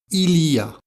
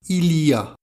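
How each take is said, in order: Both takes have the same delivery.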